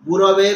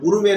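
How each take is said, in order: First: The second syllable has an a vowel. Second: The second syllable has a u vowel. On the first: The speaker calls it right. "ଗୁରବେ କହିବ" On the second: The speaker calls it wrong. "ଗୁରୁବେ ନୁହଁ"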